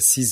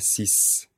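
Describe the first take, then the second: First: The final consonant sounds like z. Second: The final consonant sounds like s. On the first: "on prononce sise et dise" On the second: "on les prononce 6 et 10"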